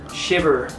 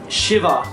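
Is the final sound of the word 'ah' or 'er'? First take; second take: er; ah. First: The word ends in an 'er' sound with R. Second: The word ends in an open 'ah' sound. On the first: "with the American accent, it's kind of more like shiver" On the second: "they all have like an A sound at the end of them"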